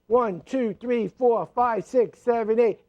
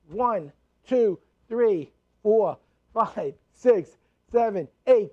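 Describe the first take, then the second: First: The counting is as fast as possible. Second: The counting is a little quicker.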